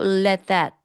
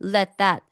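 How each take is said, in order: Both takes have the same delivery.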